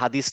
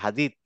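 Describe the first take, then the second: First: The word ends with an s sound. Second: The word ends with a th sound. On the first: The speaker calls it wrong. "আসলে হাদিস না" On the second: The speaker calls it right. "এটা হাদিত"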